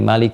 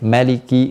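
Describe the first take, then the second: First: The first vowel is drawn out long. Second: The first vowel is said short.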